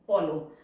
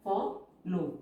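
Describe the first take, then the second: First: Said in the usual way. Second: follow split into "fo" and "lo" with a long gap; syllable by syllable. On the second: Shown as a demonstration. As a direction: pause between the two halves of follow. Syllable-by-syllable while writing.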